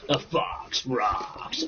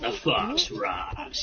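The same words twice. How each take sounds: First: It is said in a booming radio announcer voice. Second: It is said in an ordinary conversational voice.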